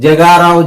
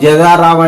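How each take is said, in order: The two takes are said the same way.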